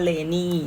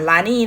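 First: The first vowel sounds like 'eh'. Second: The first vowel sounds like 'ah'. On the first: The speaker calls it right. "เราอ่านว่า" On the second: The speaker calls it wrong. "จะไม่อ่าน"

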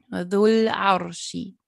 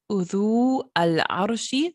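First: The vowel runs straight into the 'l' sound. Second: The article is said as a separate syllable. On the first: The speaker calls it right. "sondern Dhul-Arshi" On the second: The speaker calls it wrong. "Also nicht Udhu Al-Arshi"

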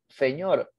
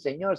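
First: The first consonant sounds like th. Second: The first consonant is a plain s sound. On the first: "sino dicen señor" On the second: "ellos no dicen señor"

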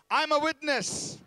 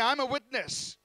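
First: It is said forcefully, with strong conviction. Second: It is said in a plain, mild way.

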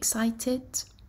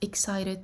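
First: It is said with a British accent. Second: It is said with an American accent. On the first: "this is British accent" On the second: "this is American accent"

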